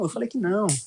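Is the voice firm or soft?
soft. It is said in a soft, gentle voice. The speaker corrects without showing anger. The speaker calls it right. "fale suavemente"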